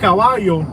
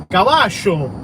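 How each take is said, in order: First: The double L is said the standard way. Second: The double L is a ch-like sound, drawn out. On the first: "instead of caballo" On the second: "they say caballo. But they like drag it out"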